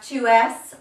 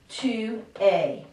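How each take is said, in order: First: The word es is said with its letters sounded. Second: The word es sounds like 'ay', final letters silent. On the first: The speaker calls it wrong. "I don't have tu es" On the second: The speaker calls it right. "It's got that A Y sound to it"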